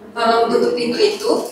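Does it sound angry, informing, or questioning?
questioning. It is said as a question.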